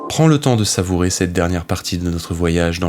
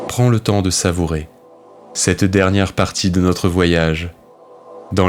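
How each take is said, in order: First: It is read quickly without any internal pauses. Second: It pauses after savourer and after voyage. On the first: The speaker calls it wrong. "j'ai fait une phrase d'un coup" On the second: The speaker calls it right. "j'ai coupé après savourer... Et ensuite j'ai coupé après voyage"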